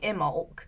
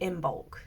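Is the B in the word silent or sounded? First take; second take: silent; sounded. First: The B in the middle is silent. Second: The B in the middle is sounded. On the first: The speaker calls it wrong. "I thought it was a silent B" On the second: The speaker calls it right. "you say the B"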